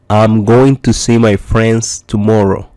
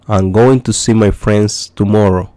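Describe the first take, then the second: No difference in how they are said.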